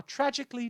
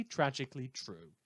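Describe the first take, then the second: First: "tragically" jumps much higher with a falling sweep; dramatic stress. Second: Said in the usual way. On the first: Acted. Radio host lamenting the attack on his listeners, mock-dramatic. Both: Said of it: "proving my own constant fear".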